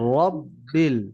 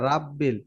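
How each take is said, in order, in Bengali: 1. r উচ্চারণ ভারী ও মোটা। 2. r উচ্চারণ হালকা ও পাতলা। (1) "এটা মোটা উচ্চারণ হবে র।" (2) "অনেকে বলে রাব্বিল"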